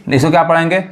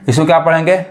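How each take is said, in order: Both takes have the same delivery.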